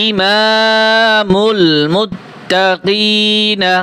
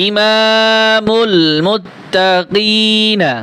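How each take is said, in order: Both takes have the same delivery.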